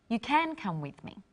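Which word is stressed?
can. The stress is on "can".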